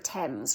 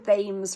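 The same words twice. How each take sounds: First: It begins with a plain t sound. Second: It begins with a th sound, as spelled. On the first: This is how the word is actually pronounced. The speaker calls it right. "not by how the word's actually pronounced" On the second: The speaker is going by the spelling. The speaker calls it wrong. "Like like foreigners saying Thames"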